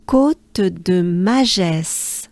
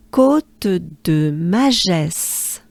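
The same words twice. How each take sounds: First: Côte de Magès drawn out slowly, every vowel open; slow demo. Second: Côte de Magès even slower, vowels held long; slow together. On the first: Teacher slowly models the climb's name for learners. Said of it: "it goes like this". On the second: Teacher leads learners slowly through the name together. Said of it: "let's do it together". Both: Shown as a demonstration.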